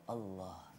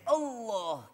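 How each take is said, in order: First: The word is said softly and humbly. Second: The word is shouted loudly. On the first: The speaker calls it right. "seakan-akan kita merendah di hadapan Allah" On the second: The speaker calls it wrong. "jangan kita teriak Allah"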